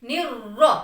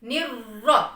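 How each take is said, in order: The two takes are said the same way.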